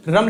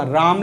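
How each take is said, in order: First: रम said short, no time on the vowel. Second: राम with the आ held longer; long vowel. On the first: Teacher contrasting written words, रम with short vowel. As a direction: keep the vowel in रम brief. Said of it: "time नहीं लगा". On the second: Teacher contrasting written words, राम with long vowel. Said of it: "तो time लगा बोलने में". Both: Shown as a demonstration.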